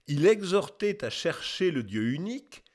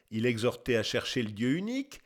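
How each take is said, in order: First: Measured formal reading with a lifted ending; declaimed quotation. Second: Lower, brisk recap to oneself; quick musing repeat. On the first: Acted. Narrator reading out an old testimony, lightly declaimed. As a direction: proclaim it lightly as a solemn testimony. Testimony read out, later repeated musingly. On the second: Real, not acted. Narrator weighing up the testimony just read, quick and musing. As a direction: go back over the quote quickly, lower and less formally. Narrator muses over the quoted words.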